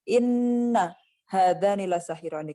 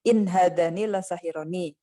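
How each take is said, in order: First: The first word has a doubled, lengthened n. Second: The first word has a single, short n. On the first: This is a variant reading using the tribes' dialect. "qiraat tasdid inna" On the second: This is the common reading. "kalau di bacaan kita"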